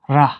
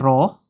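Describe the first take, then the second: First: The vowel is a short 'e' sound. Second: The vowel is a long 'a' sound. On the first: "تلفظ میشود ره" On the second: "کلمه راه"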